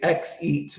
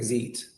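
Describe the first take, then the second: First: The name begins with an ex sound. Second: The name begins with a z sound. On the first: Some other people say it this way. "I've seen some people say X eat, which I think is funny too" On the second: This is the official pronunciation. "Zeet is how we pronounce it"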